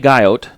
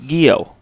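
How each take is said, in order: First: The name ends with a clear T sound. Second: The name ends without a T sound. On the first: The speaker calls it wrong. "I pronounce the T" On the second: The speaker calls it right. "I think it's Gio"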